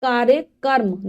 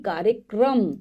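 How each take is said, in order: First: "कार्यक्रम" said as kaarya-karm; mispronounced word. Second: "कार्यक्रम" ending in kram, kaarya-kram; correct pronunciation. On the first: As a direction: say "कार्यक्रम" wrongly, ending in karm. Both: Shown as a demonstration. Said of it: "कार्यक्रम नहीं".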